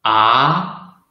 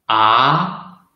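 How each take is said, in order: First: The syllable is said in the second tone. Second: The syllable is said in the second tone.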